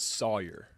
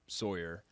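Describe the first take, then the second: First: The name is said without the Northeastern pronunciation. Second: The name is said with the Northeastern pronunciation. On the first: The speaker calls it right. "It's Sawyer" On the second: The speaker calls it wrong. "a lot of people, especially from the Northeast, will say Sawyer"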